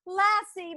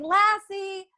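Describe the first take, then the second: First: High call that falls away at the end; calling out, falling. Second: High call across the lake. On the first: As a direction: call the name again and let it drop. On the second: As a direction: call the dog's name from far off, rising. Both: A narrator's reading. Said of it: "Timmy calling".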